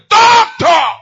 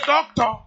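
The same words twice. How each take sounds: First: It is said loudly and forcefully. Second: It is said softly and calmly.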